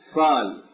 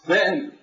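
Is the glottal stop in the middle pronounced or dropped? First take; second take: dropped; pronounced. First: A long vowel replaces the glottal stop. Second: A glottal stop is heard in the middle. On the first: This is the Hijazi dialect form. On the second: This is the Tamimi dialect form.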